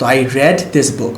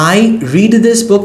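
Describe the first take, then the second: First: The word read rhymes with bed. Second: The word read rhymes with need. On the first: The reading already happened in the past. "রিডের past tense উচ্চারণ রেড" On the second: The reading happens regularly in the present. "মানে আমি এই বইটা পড়ি"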